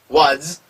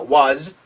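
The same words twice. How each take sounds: First: The word ends with a hissing s sound. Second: The word ends with a buzzing z sound. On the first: The speaker calls it wrong. "was가 아니라" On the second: The speaker calls it right. "즈 소리"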